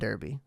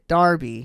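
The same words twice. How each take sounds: First: It is said with an American pronunciation. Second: It is said with a British pronunciation. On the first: The speaker calls it wrong. "That is my American accent coming out" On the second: The speaker calls it right. "Derby, not Derby"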